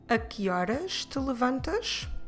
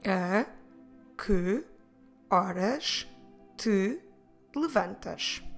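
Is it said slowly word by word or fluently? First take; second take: fluently; slowly. First: It is said fast, words run together. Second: It is said slowly, word by word.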